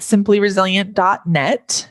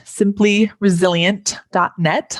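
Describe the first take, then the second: First: Said in the usual way. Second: "simply resilient dot net" said slowly, word by word; a little slower. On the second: Shown as a demonstration. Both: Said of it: "I'll say that a little slower".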